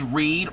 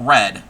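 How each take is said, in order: First: The vowel is long, like in 'reed'. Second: The vowel is short, like in 'red'. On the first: "could be pronounced Reed" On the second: "or red"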